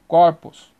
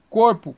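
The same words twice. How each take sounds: First: "corpos" with open ó in the first syllable. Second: "corpo" with closed ô in the first syllable. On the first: Teacher giving a plural example, open O. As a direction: say "corpos" as "KAWR-poos". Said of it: "para o aberto". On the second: Teacher giving a singular example, closed O. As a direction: say "corpo" as "KOHR-poo". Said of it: "O fechado". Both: Shown as a demonstration.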